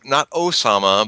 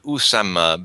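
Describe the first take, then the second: First: The name begins with an 'oh' vowel. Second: The name begins with an 'oo' vowel. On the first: The speaker calls it wrong. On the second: The speaker calls it right. "but Usama bin Laden"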